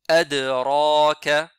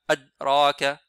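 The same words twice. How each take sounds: First: The d sound is released with a clear bounce. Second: The d sound is muted and barely heard. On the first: The speaker calls it right. "Vous entendez bien qalqala?" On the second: The speaker calls it wrong. "ça c'est un peu muet. On n'entend presque pas la lettre Dal"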